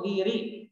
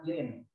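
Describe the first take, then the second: First: The word ends in a vowel, no final n. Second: The word ends with an added n sound. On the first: The speaker calls it right. "Jadi tidak boleh ada tanwinnya ya" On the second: The speaker calls it wrong. "tidak mudirin"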